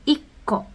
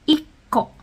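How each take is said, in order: No difference in how they are said.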